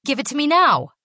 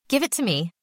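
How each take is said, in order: First: Much higher, louder commanding shout; shouted demand. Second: Higher, curt demand with a hard edge. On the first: Basil shouting at the secretary for his drug bag. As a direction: bark the order at her. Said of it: "Put off". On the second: Basil to the secretary, demanding his bag curtly. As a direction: insist coldly, no longer a child. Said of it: "the tone of his voice". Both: A narrator's reading.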